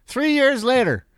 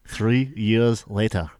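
First: Said in the usual way. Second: Low, slow trailer announcer; deep movie trailer voice. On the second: Shown as a demonstration. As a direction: rumble it like a trailer voice. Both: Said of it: "I can't do it".

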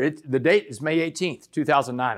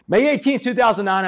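First: Said in the usual way. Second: "eighteenth" lifted higher and louder; emphatic date. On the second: Shown as a demonstration. Speaker repeats the unforgettable trial date, emphatic. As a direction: hammer the date home. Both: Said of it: "a date I'll never forget".

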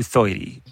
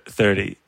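First: "thirty" said as "thoity"; "thirty" like a little kid, "thoity"; little-kid pronunciation. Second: Said in the usual way. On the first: Retold or imitated. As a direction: turn the vowel of "thirty" into "oi". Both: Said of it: "how little kids say thir-, thirty".

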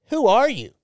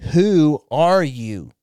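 First: High, punchy retold question; incredulous demand. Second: "Who are you?" drawn out slowly, louder, each word weighted; insistent repeat. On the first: Stranger questioning the men let past the rope, incredulous. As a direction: mimic a baffled stranger wanting answers. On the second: Retold or imitated. Stranger repeating "Who are you?" to be understood, slow and insistent. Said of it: "I don't think you understand what I'm asking".

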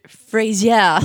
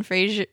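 First: Loud, laughing French-accented "Fraser"; "Fraser" as Frenchified "fray-zyeah". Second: Said in the usual way. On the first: Real, not acted. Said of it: "pronouncing it with a French accent". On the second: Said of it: "both pronouncing it with a French accent".

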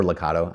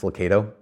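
First: "Lucado" with a KAH middle; ah-sound pronunciation. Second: "Lucado" with a KAY middle; long-A pronunciation. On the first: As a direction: say "Lucado" as loo-KAH-doh. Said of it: "I say Lucado". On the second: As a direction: say "Lucado" as loo-KAY-doh. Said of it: "you say Lucado". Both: Shown as a demonstration.

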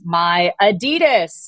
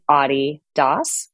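First: Adidas slowly as uh-DEE-dus; Southern California pronunciation. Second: Adi Das as AH-dee DAHS; European pronunciation. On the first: Guest quoting Run-D M C, my Adidas slowly as uh-DEE-dus. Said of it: "when you're from Southern California like me". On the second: Guest explaining the European way, Adi Das as AH-dee DAHS. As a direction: say Adi Das as the nickname Adi, then Das. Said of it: "when you're in Europe". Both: Shown as a demonstration.

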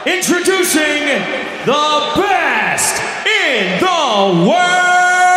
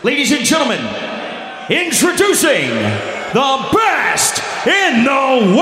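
First: Slow, sung-out announcer call; ring announcer intro. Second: Announcer call, dragged out on world; ring announcer intro. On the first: The announcer retrying the champion's intro, sung out. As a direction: stretch the last word out like a big intro. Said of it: "No, no, no". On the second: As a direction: announce him to the arena. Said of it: "That's not, that's not good enough". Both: Retold or imitated.

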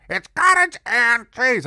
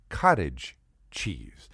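First: Put-on "cottage and cheese" high and loud in an old lady's voice; Mama Jerry. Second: "cottage cheese" slow and low, carefully separated; pedantic correction. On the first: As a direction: insist on "cottage and cheese" as a deaf old landlady. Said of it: "And she talked like this". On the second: Acted. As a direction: spell out "cottage cheese" slowly as a point of order. Correcting the name, careful slow demonstration.

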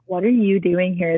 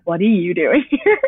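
First: Said in the usual way. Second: "What are you doing here?" breaking into a laugh; giggly retold question; laughing quote. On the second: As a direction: laugh as you repeat the cops. Quoting the cops, laughing.

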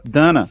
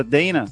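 First: Dana said lower, "DÂ-na", no glide; self-correcting version. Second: Dana said "DEI-na" with an ei diphthong; common pronunciation. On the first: Teacher corrects students on her name, "Dâna". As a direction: answer with Dana rhyming with banana. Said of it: "Aí ela, não". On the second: Students address the teacher, common "Deina". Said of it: "essa é a pronúncia comum dele". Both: Retold or imitated.

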